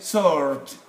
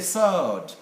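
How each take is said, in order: First: The word is said in an American accent. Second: The word is said in a British accent.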